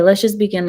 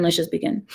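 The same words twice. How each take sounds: First: Said in the usual way. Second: "Let's just begin" said again much softer, under the breath; quiet repeat. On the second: Shown as a demonstration. Starting the stream, repeating "Let's just begin" softly to herself. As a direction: drop the voice and mutter "Let's just begin" to yourself.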